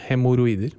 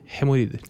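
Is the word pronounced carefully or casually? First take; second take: careful; casual. First: The word is pronounced carefully, as written. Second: The word is pronounced in a casual, reduced form. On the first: This is how the word is spelled. "det staves vel hemoroider" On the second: This is how people say it in everyday speech. "i dagligtalen sier vi hemoroider"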